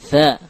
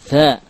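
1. Konsonannya berhembus, dengan nafas yang keluar. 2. Konsonannya berhembus, dengan nafas yang keluar.

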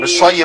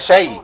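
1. المقطع لا يُنطق مثل 'shay'. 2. المقطع يُنطق مثل 'shay'، كما في tea. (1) "مش شي بقى" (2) "كانك بتقول شاي بالظبط"

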